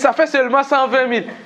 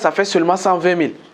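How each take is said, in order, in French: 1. La voix tremble et semble incertaine. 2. La voix est stable et semble sûre.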